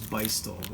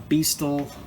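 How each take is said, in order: First: The first syllable sounds like 'bye'. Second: The first syllable sounds like 'bee'. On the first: The speaker calls it right. "the pronunciation is Beistel" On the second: The speaker calls it wrong. "You hear a lot of people say Beastal"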